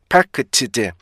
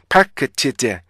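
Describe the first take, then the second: No difference in how they are said.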